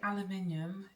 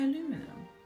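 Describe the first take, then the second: First: The word is said with a British pronunciation. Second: The word is said with an American pronunciation. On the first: The speaker calls it right. "I meant to say aluminium" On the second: The speaker calls it wrong. "did I just say aluminum? ... the American English is trying to infiltrate"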